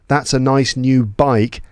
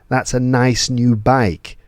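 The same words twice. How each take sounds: No difference in how they are said.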